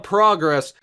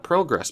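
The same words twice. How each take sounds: First: "progress" with an open "ah", PRAH-gress; first vowel of "progress" like "father"; North American "progress". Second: "progress" with a long "oh", PROH-gress; first vowel of "progress" like "go"; corrected "progress". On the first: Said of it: "saying progress instead of progress". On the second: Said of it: "I wanna say it properly". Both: Real, not acted.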